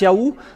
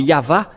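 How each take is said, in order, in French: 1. Le son du milieu est une semi-voyelle u. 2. Le son du milieu est un v clair. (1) "ceux qui prononcent Yahou ne sont jamais délivrés du péché" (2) "c'est toujours le V, la vraie épellation"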